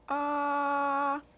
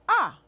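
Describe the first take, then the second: First: The pitch stays high and level. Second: The pitch falls sharply from high. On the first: "Simply straight, no change of the tone" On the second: "Let's do the fourth tone"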